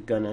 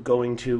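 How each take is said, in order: First: The phrase is shortened and run together. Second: The phrase is said fully as two words.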